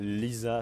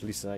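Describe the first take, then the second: First: The name is said with a French pronunciation. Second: The name is said with an English pronunciation. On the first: "la prononciation française" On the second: "la prononciation anglaise"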